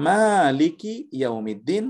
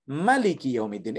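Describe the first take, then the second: First: Slow chanted Maliki ইয়াউমিদ্দিন with a rising tune; sung, Quranic recitation. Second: Sung, recite Maliki ইয়াউমিদ্দিন in the second style; sung, alternative recitation. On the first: Teacher chants one reading of the verse. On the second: Sung, teacher shows a second valid reading. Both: Shown as a demonstration. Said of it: "এইভাবে পড়া যায়".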